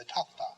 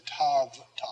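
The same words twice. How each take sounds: First: TAFTA with an unvoiced f before the t; f sound before t. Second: TAV TA with a voiced v, in two separate parts; wrong pronunciation. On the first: Teacher showing students the natural sound, tafta with a crisp f. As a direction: say "tafta" as one word, v softened to f. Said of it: "because of what follows". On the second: Teacher showing students what not to say, tav ta with a voiced v. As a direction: say "tav ta" with v before the t. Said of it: "I don't say tav ta". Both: Shown as a demonstration.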